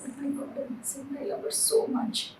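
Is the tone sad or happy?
happy. It is said in a happy, cheerful tone.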